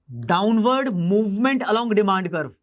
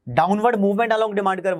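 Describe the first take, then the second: First: downward movement along demand curve said very slowly, word by word; slow dictation. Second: Said in the usual way. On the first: Shown as a demonstration. Teacher repeating the term for students to note, very slow.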